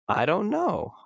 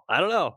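First: It sounds light and open with curiosity. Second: It sounds flat and closed off. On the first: The speaker is open to finding out. The speaker calls it right. "just that little voice tone change" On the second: The speaker does not want to explore further. The speaker calls it wrong. "all the ways we might say it is like, I don't want to go there"

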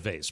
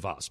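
First: It is said in the everyday, casual pronunciation. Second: It is said in the refined, cultured pronunciation. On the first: This is how an ordinary sports radio host says it. "I'm like moron sports radio guy, so I say vase" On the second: This is how cultured people say it. "really cultured people say vase"

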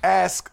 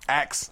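First: The word ends with the s then k sounds. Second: The word ends with the k then s sounds. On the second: "They say ax"

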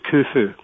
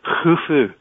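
First: It starts with a plain hard K sound. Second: It starts with a throaty sound like loch. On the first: The speaker calls it wrong. "as opposed to" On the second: The speaker calls it right. "It's actually pronounced as in loch"

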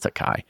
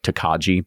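First: The word ends with an 'eye' sound. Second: The word ends with a 'jee' sound. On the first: The speaker calls it right. "It's Tokai" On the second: The speaker calls it wrong. "but that's not how you say it"

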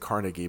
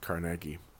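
First: Carnegie is pronounced the way Americans say it. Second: Carnegie is pronounced the non-American, local way. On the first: The speaker calls it wrong. "Americans say Carnegie" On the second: The speaker calls it right. "I think it actually is Carnegie"

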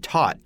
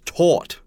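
First: American accent; the vowel nearly rhymes with 'not'. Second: British accent; the vowel does not rhyme with 'not'. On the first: "in America, you can say taut, T-A-U-T, and it kind of rhymes with not" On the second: "In the UK, it's taut"

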